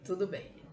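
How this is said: It sounds grudging, like giving in unwillingly. The speaker gives in despite disagreeing. "você está cedendo numa circunstância que você não queria ceder"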